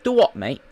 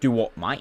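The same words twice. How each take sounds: First: It is said in a rough British accent. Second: It is said in an Australian accent. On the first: "I sound really British" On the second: "that was Australian"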